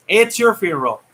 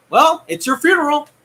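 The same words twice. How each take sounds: First: Said in the usual way. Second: "well, it's your funeral" said higher as a mocking taunt; sing-song warning "it's your funeral"; pitched-up taunt. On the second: Real, not acted. Repeats line with different tune.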